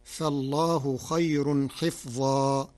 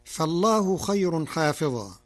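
First: "حفظا" with a kasra on the ha and a silent fa, recited slowly; Warsh reading. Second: "حافظا" with a long alif after the ha; Hafs reading. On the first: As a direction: recite "فالله خير حفظا", short "حِفْظا". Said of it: "فتصير". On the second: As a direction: recite "فالله خير حافظا" with the long "حا". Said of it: "قرأ ورش كلمة حافظا". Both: Shown as a demonstration.

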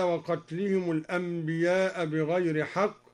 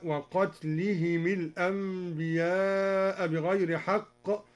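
First: Said in the usual way. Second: "وقتلهم الأنبياء" linked as waqatlihimi l-anbiya; kasra on the mim. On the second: Shown as a demonstration. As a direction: slowly join "وقتلهم" to the next word with himi, not himu. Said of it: "كسر الدوري الميم مع الهاء".

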